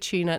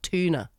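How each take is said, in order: First: It is said the Australian way, like chuna. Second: It is said the American way, with a clear t.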